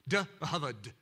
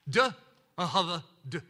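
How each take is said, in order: First: It is said quickly, run together. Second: It is said slowly, piece by piece.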